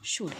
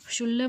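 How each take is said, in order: First: The word is said without an L sound. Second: The word is said with an L sound. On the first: The speaker calls it right. "ह्याचं pronunciation येतं शुड" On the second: The speaker calls it wrong. "शुल्ल म्हणायचं नाही"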